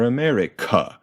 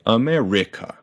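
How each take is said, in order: First: "America" punched on final CA; stress on last syllable. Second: "America" punched on RI, a-me-RI-ca; misplaced stress. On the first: Teacher showing weird stress, "America" punched on CA. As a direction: wrongly hit the end, a-me-ri-CA. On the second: Teacher showing weird stress, "America" punched on RI. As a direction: wrongly hit the third syllable of "America". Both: Shown as a demonstration. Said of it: "if we did that to another syllable".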